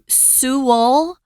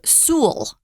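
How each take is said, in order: First: The name is said with two syllables. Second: The name is said with one syllable. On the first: "two syllables" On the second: "one syllable"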